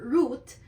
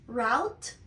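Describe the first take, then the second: First: "route" said like root, with a long oo; "route" as root, rhyming with boot; "route" pronounced roote, long u; second pronunciation. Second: "route" said to rhyme with out, like rout; "route" as rawt, with the ow sound of how; "route" spoken as rowt; first pronunciation. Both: Shown as a demonstration. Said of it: "can be pronounced as route or route".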